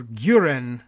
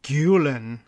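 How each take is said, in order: First: GUREN said "GYOO-ren", with an R in the middle; R in place of L. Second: Carefully modelled GULEN, "GYOO-len"; name pronunciation. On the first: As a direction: say GUREN carefully, R instead of L. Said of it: "is actually what the pronunciation". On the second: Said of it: "the surname would be". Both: Shown as a demonstration.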